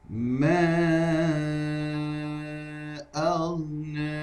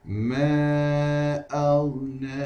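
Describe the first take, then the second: First: The long vowel is held for four counts. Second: The long vowel is held for two counts. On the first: "bagi empat harakat" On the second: "Dibacakan dengan dua harakat terlebih dahulu"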